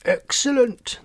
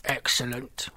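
First: Loud, high triumphant cry; booming. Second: Croaking toads. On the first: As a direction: boom it out, pitched way up. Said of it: "the three toads boomed". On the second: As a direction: croak it without raising the voice. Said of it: "all three croaked". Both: A narrator's reading.

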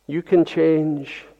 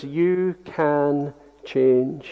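First: "can" carries the weight, falling at the end; stress on CAN. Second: "you" slow and soft, rising; stress on YOU. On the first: Preacher moving the weight onto "can" for the congregation. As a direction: press on "can" in "You can change". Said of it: "but on the can". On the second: Preacher to brothers and sisters, slow weight on "you". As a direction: linger quietly on "you". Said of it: "put all the emphasis on the word you". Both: Shown as a demonstration.

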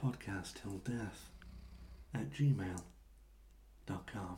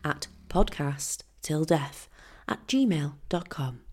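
First: Slow, low, soft seductive voice; sexy narrator voice. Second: Slow, low TV voice-over; MasterChef narrator. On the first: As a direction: purr it out slowly, deep and seductive. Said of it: "I'll do me best naked, uh, narrator voice". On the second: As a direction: read it like a cooking show voice-over. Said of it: "Now I sound like I am on MasterChef". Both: Shown as a demonstration.

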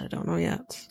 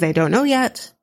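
First: Dropped much softer, almost to herself; soft repeat. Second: Said in the usual way. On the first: Shown as a demonstration. Host, paused mid-episode, softly repeats she doesn't know. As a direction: trail off under her breath. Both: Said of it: "I've paused it".

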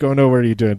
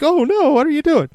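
First: Said in the usual way. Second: Far higher, hammed-up alarmed wife; imagined panicked wife catching him; mock wife shriek. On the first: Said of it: "she was like". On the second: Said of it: "then be like".

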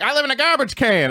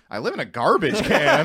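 First: High-pitched retold impression; mock impression, higher voice; imitating Chappelle. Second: Higher, rising, incredulous question; mock bewilderment, lifting at the end; puzzled repeat. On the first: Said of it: "and I did Chappelle". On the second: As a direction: repeat it as if baffled. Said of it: "after I hung up".

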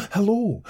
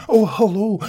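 First: High cheery hello falling at the end; gaily greeting. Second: High, bright-eyed cheery greeting with a rising end; beaming little man. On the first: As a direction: sing out a happy hello, then drop it. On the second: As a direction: greet him gaily, voice up high. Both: A narrator's reading. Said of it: "beamed the little man gaily".

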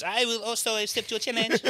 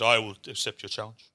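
First: High, put-on French accent; hammed-up Frenchman voice. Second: Lightly voiced English nobleman; a hint of formal English gentleman. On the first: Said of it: "The Frenchman stands up". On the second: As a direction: accept it with understated noble formality. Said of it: "English nobleman stands up".

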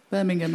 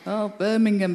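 First: Said in the usual way. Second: Light mock Scouse accent on "Oh, Birmingham"; imitating Liverpool folk saying "Birmingham" in a Scouse accent. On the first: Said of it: "back to you in a Scouse accent". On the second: Mimicking how outsiders echo her hometown, light Scouse accent. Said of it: "in a Scouse accent".

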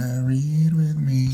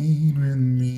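First: High, slow, put-on seductive voice; sultry tease. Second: Sultry tease. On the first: Teasing cohost with a sultry invite to read. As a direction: drawl the invite like a flirt. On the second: Pretend. Repeats seductive invite.

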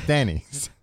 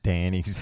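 First: Denny's with a short "e" as in "pen"; corrected to Denny's. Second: Danny's with a flat "a" as in "man"; said wrong as Danny's. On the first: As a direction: fix it: Denny's, e as in "pen", not Danny's. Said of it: "Not Danny's". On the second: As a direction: say it Danny's, as if the sign read Danny's. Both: Shown as a demonstration.

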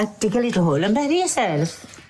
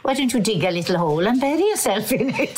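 First: Light Welsh teacher voice; a hint of a Welsh teacher; Welsh accent. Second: Lightly voiced Welsh teacher; a touch of a stern Welsh teacher; Welsh accent. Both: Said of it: "I said that in Welsh accent".

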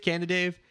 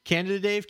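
First: "Canada Dave" merged as Cana-Dave; blended pun. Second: "Canada Dave" with the DA kept before Dave; full pronunciation. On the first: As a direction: drop the extra DA in "Canada Dave". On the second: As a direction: say all of "Canada", then "Dave". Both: Shown as a demonstration. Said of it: "it's your preference".

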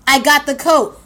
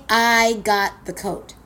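First: Louder, bragging I got the coat; triumphant boast. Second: I got the coat, slow, each word landed; slow savoring. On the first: Comic telling the audience she won, loud triumph. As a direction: crow about the win. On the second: Comic repeating her win to the crowd, slow and savoring. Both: Real, not acted. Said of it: "You hear what I'm saying?".

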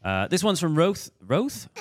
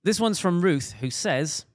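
First: Higher, louder radio DJ read. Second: Higher, louder radio DJ read, name corrected. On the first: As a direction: put on a lightly hammed DJ delivery. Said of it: "work on my radio D J voice". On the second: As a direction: introduce it like a radio presenter. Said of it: "my radio D J voice". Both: Acted.

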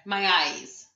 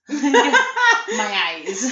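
First: Softer mock lament with a laugh; imitating a man's complaint. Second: Higher, hammed-up mock wail with laughter; imitating a man's complaint. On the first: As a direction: lightly mimic his complaining, holding back volume. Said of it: "Did you hear him going on about his eyes". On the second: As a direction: exaggerate his lament, pitched up and drawn out. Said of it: "Every time he said it".

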